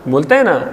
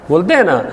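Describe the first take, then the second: No difference in how they are said.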